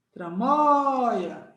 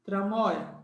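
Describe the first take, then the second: First: "Tramóia" with MÓI raised and held long; sílaba forte esticada. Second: Said in the usual way. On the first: Shown as a demonstration. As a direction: stretch and punch the MÓI in "Tramóia". ("Tramóia" puxando bem o MÓI, devagar) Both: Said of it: "Qual é a sílaba forte de tramóia?".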